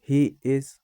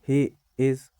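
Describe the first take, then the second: Both takes have the same delivery.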